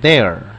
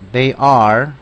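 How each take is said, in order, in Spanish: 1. Se dice como una sílaba contraída. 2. Se dice como dos palabras separadas y completas.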